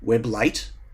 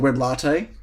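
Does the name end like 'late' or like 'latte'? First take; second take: late; latte. First: The name ends sounding like 'late'. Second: The name ends sounding like 'latte'. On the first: "Web Late sounds terrible" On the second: "is it not called Web Latte?"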